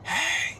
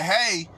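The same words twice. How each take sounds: First: The word is whispered softly. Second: The word is yelled loudly. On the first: It makes the listener lean in to hear. "if I whisper to you" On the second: It shocks the listener. "yell at you and say"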